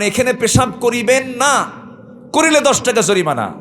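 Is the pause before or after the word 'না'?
after. The pause comes after 'না'.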